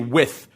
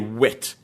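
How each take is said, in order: First: The word ends with a soft 'th' sound. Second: The word ends with a hard 't' sound. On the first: The speaker calls it wrong. "you don't say with" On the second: The speaker calls it right. "you say wit"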